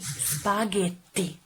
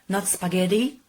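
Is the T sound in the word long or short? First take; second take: long; short. First: The T is held long and strong. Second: The T is short and soft. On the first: The speaker calls it right. "remember to use the double T" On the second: The speaker calls it wrong.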